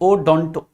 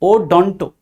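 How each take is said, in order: First: The second syllable has an 'o' vowel. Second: The second syllable has an 'o' vowel.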